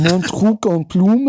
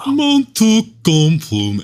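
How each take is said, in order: First: "Mon truc en plume" in native French, nasal "Mon", uvular r in "truc"; correct French pronunciation. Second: "Mon truc en plume" much higher, louder, slow and exaggerated; mock bad French. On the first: Host shows co-host the real French title pronunciation. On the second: Co-host mocks the title in an overblown high voice. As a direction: drag out "Mon truc en plume" in a hammed-up squeal. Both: Shown as a demonstration. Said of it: "is not how you pronounce it".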